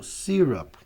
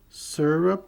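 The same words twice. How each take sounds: First: The first syllable does not sound like 'sir'. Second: The first syllable sounds like 'sir'. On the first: "Ou syrup" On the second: "como se fosse sir"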